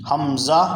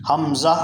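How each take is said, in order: Both takes have the same delivery.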